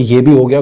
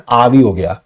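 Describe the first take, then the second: First: Said in the usual way. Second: Lightly Punjabi "आ भी हो गया", with "आ" for "ये"; Punjabi phrasing. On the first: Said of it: "को बोलते हैं ऐसे". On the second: Shown as a demonstration. Teacher showing students his family's speech, Punjabi "आ भी हो गया". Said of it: "हम पंजाबी में ऐसे बोलते हैं".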